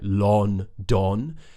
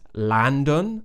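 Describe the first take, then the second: First: The first vowel sounds like a full 'o'. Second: The first vowel sounds like an 'a'. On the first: "when people pronounce it more how it's spelt with the O's" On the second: "they don't know how to pronounce the uh sound"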